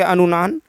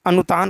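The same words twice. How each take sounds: First: Teacher's slip, अनुनान said with n in the middle; slip to anunaan. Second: अनुतान said clearly with a dental t; corrected to anutaan. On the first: Teacher misspeaks the term as अनुनान. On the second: Teacher corrects himself to अनुतान for the class. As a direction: fix it to अनुतान, t in the middle. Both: Shown as a demonstration. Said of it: "अनुतान कहलाता है".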